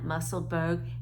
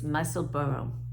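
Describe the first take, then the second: First: The name ends sounding like 'burg'. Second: The name ends sounding like 'borough'. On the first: The speaker calls it wrong. "It's not Musselburgh" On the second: The speaker calls it right. "It's Musselboro"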